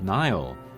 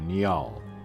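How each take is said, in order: First: The first vowel is a long I sound. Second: The first vowel is a short I sound. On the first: The speaker calls it wrong. "most people are pronouncing it like Nile, with like a long I" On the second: The speaker calls it right. "the katakana does say a short I, uh, ni, so Niall"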